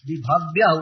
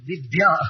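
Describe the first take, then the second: First: The 'bh' sound is fully pronounced. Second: The 'bh' sound is reduced or weakened. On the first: The speaker calls it right. "विभव्य उच्चारण होगा" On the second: The speaker calls it wrong. "ऐसे सब लोग दिव्य उच्चारण करते"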